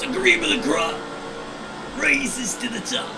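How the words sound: It is said in an imitated gravelly wrestler voice.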